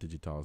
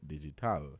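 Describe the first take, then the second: First: The final syllable is unstressed, as usual. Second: The final syllable is stressed, like 'all'.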